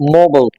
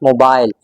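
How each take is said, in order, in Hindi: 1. यह अमेरिकी लहजे में बोला गया है। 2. यह ब्रिटिश लहजे में बोला गया है। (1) "But in American English" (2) "In British English, this word is usually pronounced as mobile"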